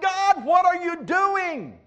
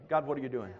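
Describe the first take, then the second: First: Slow, higher, louder lament; desperate plea. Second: "God, what are you doing?" muttered low and soft; quiet complaint. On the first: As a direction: drag out "God, what are you doing?" in anguish. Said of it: "he had this thought". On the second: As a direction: say it low and soft, like a private grumble. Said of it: "how many of you ever been that way". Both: Retold or imitated.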